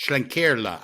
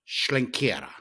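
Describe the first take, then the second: First: Schlenkerla as shlen-KER-la, clear final la; corrected pronunciation. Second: Schlenkerla slurred to shlen-KEH-ra, losing its l; mispronounced brewery name. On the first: Shown as a demonstration. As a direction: say Schlenkerla with both r and l sounded. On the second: Real, not acted. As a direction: say Schlenkerla with the final la turned into ra. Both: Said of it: "I said it wrong there".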